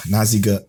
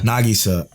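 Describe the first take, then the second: First: Naziga said as na-ZEE-ga, mispronounced; wrong name. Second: Nagisa said properly as nah-GEE-sah; corrected name. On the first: Hosting the anime review, fumbling the heroine's name. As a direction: Naziga with z and g swapped. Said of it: "I fucked up her name". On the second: Corrected by his co-host, saying it right. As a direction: Nagisa with the g before the s. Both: Real, not acted.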